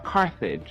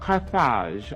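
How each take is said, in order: First: It is said in the American way. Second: It is said in a non-American way.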